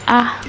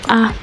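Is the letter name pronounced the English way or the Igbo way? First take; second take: Igbo; Igbo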